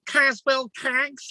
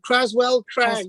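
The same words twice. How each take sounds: First: It is said in a Liverpool accent. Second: It is said in the speaker's plain accent.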